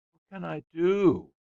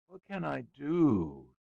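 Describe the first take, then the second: First: High, loud, whining plea; plaintive. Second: Put-on slow, high and insistent child's demand. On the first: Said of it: "he said plaintively". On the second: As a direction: drag it out like a bored boy nagging. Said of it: "he demanded of his father". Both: A narrator's reading.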